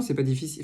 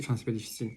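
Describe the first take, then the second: First: Said in the usual way. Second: Softer, taking it back a little; quiet second-guessing correction; hedged, much softer retake. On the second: Shown as a demonstration. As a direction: drop the voice and half retract it.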